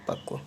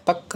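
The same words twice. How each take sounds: First: पक्व softly, with rounded "kv" ending; correct pronunciation. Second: पक ending on a bare k; wrong pronunciation. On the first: Teacher answering own question, पक्व soft with "kva". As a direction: finish पक्व on a "va" glide. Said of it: "कौन सा?". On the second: Teacher rejecting an error, पक without any v sound. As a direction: stop पक right on the k. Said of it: "पक नहीं". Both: Shown as a demonstration.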